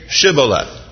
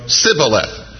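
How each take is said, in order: First: It is said with an 'sh' sound at the start. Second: It is said with an 's' sound at the start.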